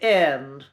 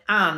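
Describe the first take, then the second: First: The vowel is a raised 'eh'-like sound. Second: The vowel is an open 'ah'-like sound. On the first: This is the traditional, old-fashioned pronunciation. "We basically say eh" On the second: This is the modern pronunciation. "we don't say the ah sound"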